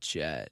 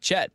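First: The name is said with a creaky vocal fry. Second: The name is said in a plain, clear voice. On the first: This is the gloomy goth way to say the name. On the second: This is the ordinary way to say the name.

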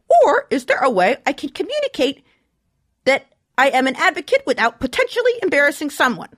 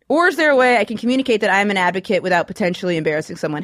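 First: The question is read in a put-on character voice. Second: The question is read in a natural speaking voice. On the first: "I'll do a voice when I read the question" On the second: "I'm not going to do that anymore"

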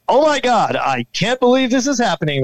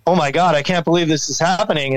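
First: It is said in a newscaster's voice. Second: It is said in his own normal voice.

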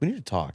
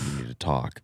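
First: It is said in a light, casual way. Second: It is said in an intense, serious way.

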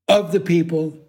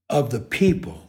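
First: The stress falls on the word of. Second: The stress falls on the word people. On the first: "most actors would say" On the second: "He emphasized the people"

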